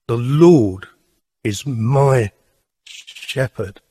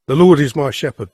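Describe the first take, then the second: First: It is said slowly and thoughtfully. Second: It is rattled off quickly and carelessly.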